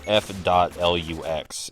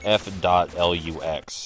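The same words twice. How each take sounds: First: The letter F is said separately before lux. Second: The letter F is said separately before lux.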